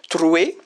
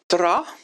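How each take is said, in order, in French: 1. Le mot se termine par le son 'we'. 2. Le mot se termine par le son 'a'.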